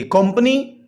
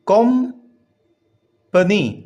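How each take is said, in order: First: Said in the usual way. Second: कंपनी split slowly into three syllables, com-pa-ny. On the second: Shown as a demonstration. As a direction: sound out कंपनी with long gaps between syllables. Breaks word into three syllables. (کمپنی کو تین ٹکڑوں میں توڑ کر بولیں)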